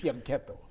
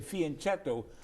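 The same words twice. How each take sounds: First: The word is said with an Italian pronunciation. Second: The word is said with an English pronunciation. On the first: "if you're true to the Italian language" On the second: "the anglicized pronunciation"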